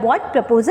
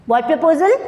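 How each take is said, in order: First: Said in the usual way. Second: Sudden shocked question, pitched up and louder. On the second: Acted. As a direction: jolt up with shock on proposal. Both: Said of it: "Natalia थोड़ा shocked होती है".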